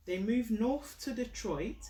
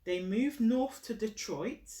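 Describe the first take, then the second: No difference in how they are said.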